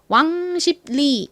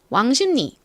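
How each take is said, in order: First: Every letter is pronounced exactly as spelled. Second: The consonants change to ease the pronunciation. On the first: The speaker calls it wrong. "철자는 왕십리이지만 저희가 이걸 발음할 때 왕십리 이렇게 발음하지 않죠" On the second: The speaker calls it right. "왕십리 요렇게 왕십리처럼 발음을 합니다"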